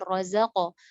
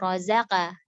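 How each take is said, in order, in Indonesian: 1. Bunyi q itu tebal. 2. Bunyi q itu tipis. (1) "dibaca tebal" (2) "Malah dibaca tipis"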